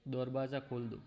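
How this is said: It is said with a Bengali-accented pronunciation. The speaker calls it wrong. "अगर वो बंगाली है तो वो हिंदी ऐसे बोलेगा"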